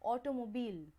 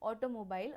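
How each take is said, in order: First: The last syllable is said like 'bill'. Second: The last syllable is said like 'bile'. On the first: "British ॲक्सेंटमध्ये it is also said ऑटोमोबिल" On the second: "आपल्या Indian English ॲक्सेंटमध्ये आपण ऑटोमोबाईल असंच म्हणतो"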